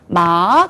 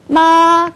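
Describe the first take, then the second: First: It is said in the second tone. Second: It is said in the first tone. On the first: It means hemp. "일성과 이성에 따라서 뜻이 완전히 바뀌어요" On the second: It means mother. "요걸 일성이라고 그러거든요"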